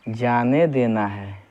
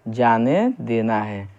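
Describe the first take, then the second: The two takes are said the same way.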